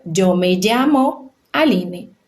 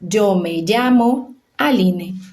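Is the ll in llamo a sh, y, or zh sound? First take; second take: zh; zh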